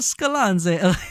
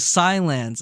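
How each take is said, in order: First: The name is said with an Italian-sounding pronunciation. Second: The name is said like the English word silence. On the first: The speaker calls it wrong. "I was thinking like Italian" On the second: The speaker calls it right. "So silence"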